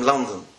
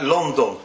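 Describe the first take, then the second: First: "London" with an open A-like first vowel, LAN-den; unrounded first vowel in "London"; English pronunciation. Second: "London" as LON-don; rounded O in "London"; Yiddish pronunciation. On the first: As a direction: say "London" the English way, not with a round O. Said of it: "n-, not". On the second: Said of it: "how they say it in Yiddish". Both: Shown as a demonstration.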